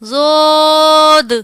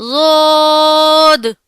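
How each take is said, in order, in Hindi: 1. यह अरबी लहजे में बोला गया है। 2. यह अरबी लहजे में बोला गया है।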